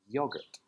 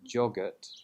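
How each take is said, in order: First: The word begins with a Y sound. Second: The word begins with a G or J sound. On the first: The speaker calls it right. "It's a Y sound" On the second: The speaker calls it wrong. "It's not a G or a J sound"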